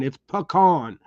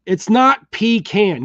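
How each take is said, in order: First: "pecan" said puh-KAHN, stress on the second syllable; puh-KAHN, the proper way; right pecan. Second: "pecan" said PEE-can, stress on the first syllable; PEE-can, the way he says is wrong. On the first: Teaching viewers to say pecan, puh-KAHN. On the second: Correcting a viewer's pecan, mock PEE-can. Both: Shown as a demonstration. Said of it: "It's pronounced".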